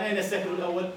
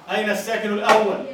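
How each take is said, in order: First: Said in the usual way. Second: الأول stressed loudly as أوّل with doubled waw; louder repeat. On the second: Shown as a demonstration. Teacher repeats the question louder for the class.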